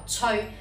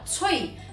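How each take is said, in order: First: The character is read with Cantonese pronunciation. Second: The character is read with Mandarin pronunciation. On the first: "粵語讀翠" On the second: "呢個字普通話讀吹"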